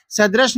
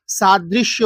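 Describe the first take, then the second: First: सदृश said "sad-rash", short first vowel; wrong form. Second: Slow सादृश्य, said "saa-drish-ya"; carefully sounded सादृश्य, long first vowel, "-shya" ending; correct form. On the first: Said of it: "सदृश नहीं होता". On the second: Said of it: "सादृश्य होता है". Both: Shown as a demonstration.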